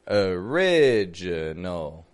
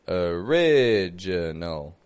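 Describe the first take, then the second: First: The first vowel is a reduced schwa. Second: The same.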